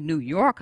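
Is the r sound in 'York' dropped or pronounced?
pronounced. The r in York is clearly pronounced. "I do not say New York"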